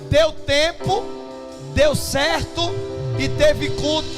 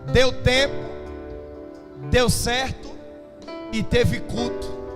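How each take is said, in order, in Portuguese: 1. A frase é dita bem mais alto. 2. A frase é dita em volume normal. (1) "vou falar mais alto" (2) "Vou dizer de novo"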